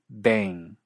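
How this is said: It is said in an American English accent. "En cierto inglés estadounidense"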